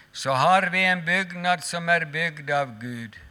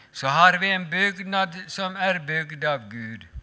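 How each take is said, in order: No difference in how they are said.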